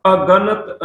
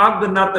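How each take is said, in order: First: ਅਗਨਤ slowly split as a-ganat; correct pronunciation. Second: ਅਗਨਤ run together as ag-nat; wrong pronunciation. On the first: Teacher showing the prefix, ਅਗਨਤ slow as a-ganat. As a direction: separate the opening a in ਅਗਨਤ as a prefix. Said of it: "ਐੜਾ ਅਗੇਤਰ ਲਗਾ ਕੇ". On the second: Teacher warning against a misreading, ਅਗਨਤ run together. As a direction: say ਅਗਨਤ fast, dropping the middle vowel. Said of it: "ਇਹਨੂੰ ਅਗਨਤ ਨਹੀਂ ਪੜ੍ਹਨਾ". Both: Shown as a demonstration.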